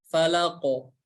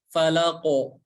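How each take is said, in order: Both takes have the same delivery.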